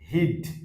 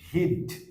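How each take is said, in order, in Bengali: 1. এটি সংক্ষিপ্ত হয়ে একটি একক সিলেবলে পরিণত হয়। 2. এটি সংক্ষিপ্ত হয়ে একটি একক সিলেবলে পরিণত হয়।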